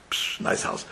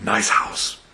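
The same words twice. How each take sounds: First: Breathed out without voice; a hushed whisper. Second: Said in the usual way. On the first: Retold or imitated. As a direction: whisper it in awe. Father admiring the house.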